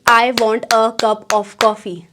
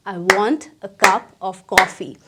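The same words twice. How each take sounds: First: I, WANT, A, CUP, OF, COFFEE each given full weight; every word stressed equally. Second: Low start, WANT and CUP drawn out, "a" and "of" reduced; rhythmic sentence stress. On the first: Teacher showing learners the wrong way, every word of "I want a cup of coffee" stressed. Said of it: "ना कि". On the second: Teacher modelling the right rhythm, stressing WANT, CUP, COFFEE. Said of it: "sense of rhythm समझ आने लगेगा". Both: Shown as a demonstration.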